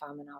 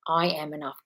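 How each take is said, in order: First: It is said weakly, without conviction. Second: It is said forcefully, with strong conviction.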